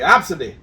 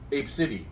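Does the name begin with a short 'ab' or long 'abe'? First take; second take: short ab; long abe. First: It begins with a short 'ab' sound. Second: It begins with a long 'abe' sound. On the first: The speaker calls it wrong. "That's what I say" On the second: The speaker calls it right. "He said it's pronounced Ab. No, Abe. Sid, City"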